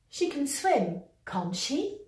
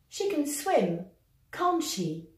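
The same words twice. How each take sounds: First: The pitch rises at the end of the tag. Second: The pitch falls at the end of the tag. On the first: The speaker is not sure. "intonation montante" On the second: The speaker is sure. "Intonation descendante"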